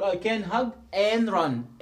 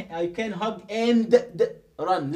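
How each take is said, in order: First: "and run" joined, D dropped to "an-run"; "and" said as "an", running into "run"; linked reading. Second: "and" with a hard D before run; wrong unlinked reading. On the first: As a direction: glide from "and" into "run" without the D. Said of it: "لا، هقول". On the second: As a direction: punch out the D in "and", breaking it off from "run". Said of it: "ما أقولش". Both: Shown as a demonstration.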